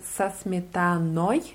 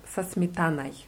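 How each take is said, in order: First: The ending of the last word is fully pronounced. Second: The ending of the last word is partly swallowed. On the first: "genau ausgesprochen würde es sich anhören" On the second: "man verschluckt das so am Ende ein bisschen"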